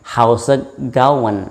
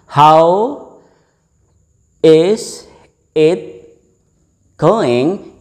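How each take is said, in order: First: "How's it going?" said slowly as "hausegowan", ending on N; linked pronunciation. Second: "How" "is" "it" "going" split apart with pauses; word by word. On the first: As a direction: glide it into "hausegowan" with a final N. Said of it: "but going dengan akhiran N". ("How's it going?" diucapkan pelan "hausegowan" berakhiran N) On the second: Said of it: "It will be pronounced". (ucapkan "How is it going" kata per kata dengan jeda) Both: Shown as a demonstration.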